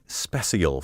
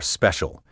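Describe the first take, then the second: First: It is said in an odd, affected way. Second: It is said in the ordinary, plain way. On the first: The speaker calls it wrong. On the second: The speaker calls it right.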